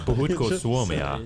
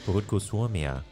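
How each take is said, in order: First: The final vowel of the last word is dropped. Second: The final vowel of the last word is pronounced. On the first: The speaker calls it wrong. "You forgot the A at the end" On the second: The speaker calls it right. "There you go"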